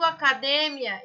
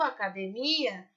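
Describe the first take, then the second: First: It is stressed following the Spanish pattern. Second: It is stressed following the Portuguese pattern. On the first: "Em espanhol eu digo" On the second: "em português eu digo"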